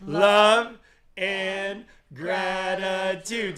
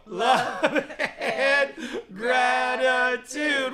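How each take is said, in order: First: Slow, high, loud sung line; sung together. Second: Soaring very high, loud shout-chant with a laugh; like an eagle. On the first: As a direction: sing it out for the crowd to join. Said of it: "Say it with me". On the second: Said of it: "Like an eagle". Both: Shown as a demonstration.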